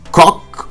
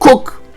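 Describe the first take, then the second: First: The name is said to rhyme with English cock. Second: The name is said to rhyme with English cook. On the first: "or Cock" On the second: "or Cook"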